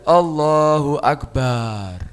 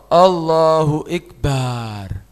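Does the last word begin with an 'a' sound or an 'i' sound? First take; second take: a; i. First: The last word begins with 'a', with a long vowel after b. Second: The last word begins with an 'i' vowel. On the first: "Antara ba dan ro tambah alif" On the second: "Atau dengan kasroh"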